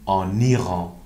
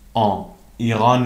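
First: The n is sounded and linked into Iran. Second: The n is dropped, with no link to Iran. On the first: The speaker calls it right. "میگیم آن ایران. دقت بکنید که ان در حرف اضافه آن باید لیزون بشه" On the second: The speaker calls it wrong. "آن ایران نمیگیم"

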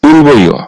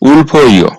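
First: The middle consonant is a b sound. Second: The middle consonant is an aspirated p sound. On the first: The speaker calls it right. "এই শব্দটার সঠিক উচ্চারণ হবে উলবইয়" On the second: The speaker calls it wrong. "এই শব্দটার উচ্চারণ হয়েছে উলফইয়"

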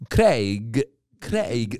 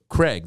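First: The A and I sounds are heard separately. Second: The vowel is one blended sound.

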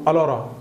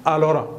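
No difference in how they are said.

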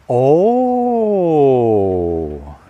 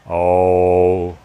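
First: The 'oh' is lively and full of interest. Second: The 'oh' is flat and uninterested. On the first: The news fascinates the listener. The speaker calls it right. "When someone tells you something interesting, you go" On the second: The news does not interest the listener. The speaker calls it wrong. "you don't go"

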